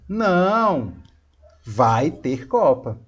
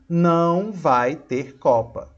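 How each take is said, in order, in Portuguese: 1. Há uma pausa depois da primeira palavra. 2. Segue sem pausa depois da primeira palavra. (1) "Mas olha se eu colocar uma pausa" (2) "Não tive pausa"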